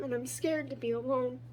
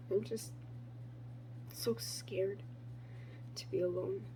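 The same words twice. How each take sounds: First: Said in the usual way. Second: Much softer, trailing into a breathy whisper on "to be alone"; fragile whisper. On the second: Acted. Poet admitting to herself she fears being alone, whispered. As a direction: let the fear shrink to a whisper. Repeated line, whispered echo.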